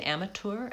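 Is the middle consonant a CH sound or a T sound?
T. The middle consonant is a clear T sound. "if you're looking for British, I think they say amateur, amateur with a T"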